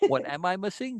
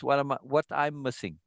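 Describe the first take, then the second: First: Said in the usual way. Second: "what I'm missing" said without the question order; Bina's way. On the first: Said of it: "She doesn't say". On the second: Shown as a demonstration. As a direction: fold "am I" into "I'm" like Bina. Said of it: "She says".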